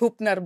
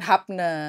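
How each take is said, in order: First: The first vowel sounds like 'u'. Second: The first vowel sounds like 'a'. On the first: The speaker calls it right. "bacanya Hupner" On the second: The speaker calls it wrong. "bukan Hapner"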